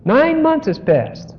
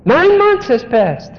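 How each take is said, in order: First: "months" lifted high and held, slow fall after; stress on months. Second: "Nine" drawn out high and slow, then falling; stress on nine. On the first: Preacher repeating the point to the congregation, weight now on "months". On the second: Preacher pressing home how much time passed, weight on "Nine". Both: Shown as a demonstration.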